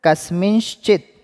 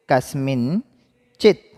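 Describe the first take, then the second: First: कस्मिंश्चित said higher, falling, syllable by syllable; pronunciation model. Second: कस्मिंश्चित said slowly, rising at the end; slow repeat. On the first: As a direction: model कस्मिंश्चित for the class to repeat. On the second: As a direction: stretch कस्मिंश्चित out slowly for the class. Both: Shown as a demonstration. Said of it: "उच्चारण कीजिए मेरे साथ".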